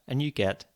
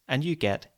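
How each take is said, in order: The two takes are said the same way.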